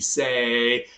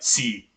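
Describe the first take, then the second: First: The vowel is a long 'ay' sound. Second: The vowel is a long 'ee' sound. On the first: This is the older pronunciation before the vowel shift. "make it a long say" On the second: This is the modern pronunciation after the vowel shift. "that changed about five hundred years ago to"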